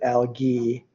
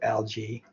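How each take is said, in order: First: The word is pronounced the British way. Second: The word is pronounced a non-British way. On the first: "the guy was British, so he says algae" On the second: "instead of algae"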